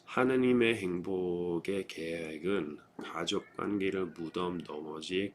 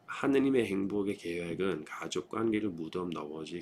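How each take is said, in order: First: The sentence is spoken at a slow pace. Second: The sentence is spoken at a faster pace. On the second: "A little faster"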